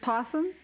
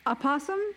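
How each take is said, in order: First: The word starts directly with the p sound. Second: An extra vowel sound comes before possum. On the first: "people just say possum" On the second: "I've always said, like, a possum"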